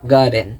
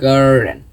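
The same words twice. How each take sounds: First: It is said in a British accent. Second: It is said in an American accent. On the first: "যদি British ব্রিটিশদের মধ্যে বলেছেন তাহলে গার্ডেন" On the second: "আর American যেহেতু আমি American pronunciation শিখতেছি তাহলে গার্ডেন"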